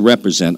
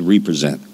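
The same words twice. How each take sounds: First: It is said as one ordinary word. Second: It is said as re plus present. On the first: To act on behalf of someone. "I didn't say represent" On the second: To present someone again. "I said represent"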